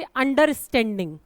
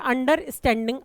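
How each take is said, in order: First: Said in the usual way. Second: अंडरस्टैंडिंग broken as अंडर, then स्टैंडिंग; split into parts. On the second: Shown as a demonstration. Teacher showing pupils how a word divides, अंडरस्टैंडिंग split in two. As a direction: say अंडरस्टैंडिंग in two separate chunks. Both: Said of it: "अलग-अलग हो गए".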